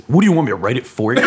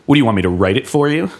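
First: Fast, laughing imitation of Will; mock exasperation. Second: Fast, exasperated imitation of Will; mock exasperation. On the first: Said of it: "he would say". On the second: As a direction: toss it off quickly as Will would. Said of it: "in his loving, hating, "fuck you, I love you" way".

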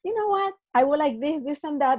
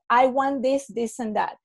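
First: Lightly friendly, asking nicely with a smile; a gentle smiling ask, bright on the opening; polite smiling version of the request. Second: Mild flat demanding tone; a hint of a pushy negotiator; blunt demand. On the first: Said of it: "if you're in person and you smile". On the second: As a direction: state what you want without a smile. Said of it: "Much more different, the body language". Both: Shown as a demonstration.

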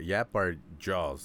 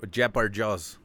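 First: "Yap" started with a clear Y glide, said slowly; carefully sounds out "Yap" with a Y. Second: "jap" with a J sound instead of Y, "jap our jaws"; mispronounced jap. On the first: Fixing his slip, he says "Yap" slowly with a clear Y. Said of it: "I gotta think about it to say the Y". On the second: Tripping over the phrase, he says "jap our jaws". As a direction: slips into "jap", J for the Y. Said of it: "Fuck, I can't even say it right". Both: Shown as a demonstration.

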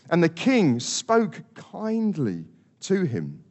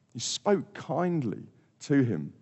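First: Plain. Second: Tender. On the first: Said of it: "Verse twenty-eight says". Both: Shown as a demonstration.

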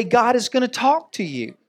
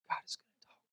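First: Said in the usual way. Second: Barely audible whisper; still small voice. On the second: Shown as a demonstration. Preacher showing how God is gonna talk, still small whisper. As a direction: whisper it as God's gentle prompting. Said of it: "whispers in a still small voice".

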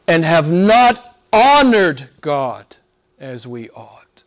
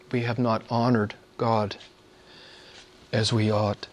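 First: Slow, weight on honored; emphatic. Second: Much softer, hushed confession; soft repeat. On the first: Preacher confessing to congregation, slow and emphatic. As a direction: lean hard on honored, slowly. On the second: Preacher repeating the confession to congregation, hushed. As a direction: drop to a hush and admit it. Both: Shown as a demonstration.

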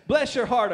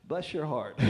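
First: "Bless your heart" said loud and sweet, BLESS leaned on; "Bless your heart" with genuine warmth; kind bless your heart. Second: "bless your heart" dropped low and soft as a put-down; "bless your heart" muttered low with a sting; insulting bless your heart. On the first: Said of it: "it can be kind". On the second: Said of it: "it can be an insult". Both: Shown as a demonstration.

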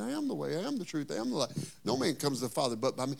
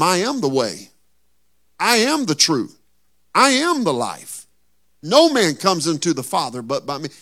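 First: Softer, hushed I am lines; Jesus answering Thomas, hushed; quiet telling. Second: Ringing, preached proclamation; Jesus' words called out to the church; loud declaration. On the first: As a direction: drop it down and tell it gently. Jesus' answer retold, dropped soft. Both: Acted.

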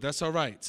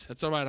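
First: "That's all right" with the tune dropping at the end; falling reassurance. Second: "That's all right" with the tune lifting on "all right"; rising reassurance. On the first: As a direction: settle it with a falling close. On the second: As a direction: lift the end as if checking in. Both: Shown as a demonstration.

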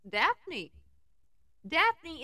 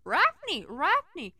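First: Said in the usual way. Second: "Rafney" with a growled R for the D, high and urgent; Scooby-Doo mangling "Rafney" into the phone; Scooby-Doo accent. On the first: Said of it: "I said in my most urgent tone". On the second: Acted. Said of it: "He put his paw up on".

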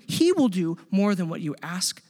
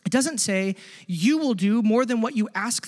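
First: "he" pressed hard, the rest of the line even; correcting himself, push "he"; stress on he. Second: "you" leaned on to mark the wrong subject; stress on you. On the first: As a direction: land on "he" in "he will do". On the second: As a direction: hit "you" in "you will do". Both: Shown as a demonstration. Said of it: "it's, it's he will do".

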